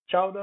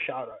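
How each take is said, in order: First: "chowder" with a hard CH; ch-sound chowder. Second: "chowder" as SHOW-der, rhyming with powder; sh-sound chowder. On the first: Teacher offering learners one option, "chowder" starting with CH. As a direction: begin "chowder" as in chair. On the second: Teacher offering learners another option, "chowder" starting with SH. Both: Shown as a demonstration. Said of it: "You'll have to look it up".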